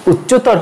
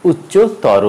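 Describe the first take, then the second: First: উচ্চতর ending on a bare r; wrong pronunciation. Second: উচ্চতর with a final "o"; correct pronunciation. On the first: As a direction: say উচ্চতর as "uchcho-tawr". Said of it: "উচ্চতর হবে না". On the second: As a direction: say উচ্চতর as "uchcho-tawro". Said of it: "হবে". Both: Shown as a demonstration.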